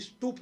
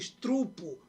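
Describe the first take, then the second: First: The r sound comes right after the p. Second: The r sound comes right after the t. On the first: The speaker calls it right. "Em lugar de eu falar aqui estupro" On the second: The speaker calls it wrong. "eu falo estrupo"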